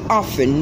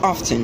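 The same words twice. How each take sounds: First: The word is said with a silent T. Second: The word is said with the T pronounced. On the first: The speaker calls it right. "It possesses a silent letter T, so it's rightly pronounced often" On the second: The speaker calls it wrong. "not often"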